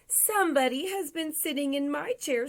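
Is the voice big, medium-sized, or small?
small. It is said in a small, high voice. "in his wee little voice"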